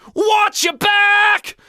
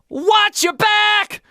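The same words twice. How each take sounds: First: The vowel in 'watch' resonates far back in the throat. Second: The vowel in 'watch' resonates forward in the mouth. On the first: The speaker calls it right. "watch is back" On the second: The speaker calls it wrong. "It's not watch your back. It's not that"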